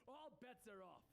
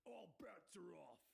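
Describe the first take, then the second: First: High, slow proclamation; drawn-out theatrical announcement; Penguin. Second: Slow, rough interrupting call; drawn-out announcement from the crowd. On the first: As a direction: call it out as the boss. Penguin declares contest void to crowd. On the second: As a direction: break in with a commanding challenge. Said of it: "a voice calls out". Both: A narrator's reading.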